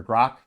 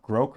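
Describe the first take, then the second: First: Grok with a short, open o, like "grock"; alternative pronunciation. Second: Grok with a long o, like "groke"; alternative pronunciation. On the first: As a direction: say Grok to rhyme with "rock". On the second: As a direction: say Grok to rhyme with "broke". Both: Shown as a demonstration. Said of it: "I don't know how you pronounce it".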